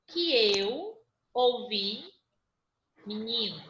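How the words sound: There is a pause after 'ouvi'.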